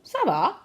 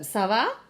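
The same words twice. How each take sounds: First: It is said as a falling statement. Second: It is said as a rising question.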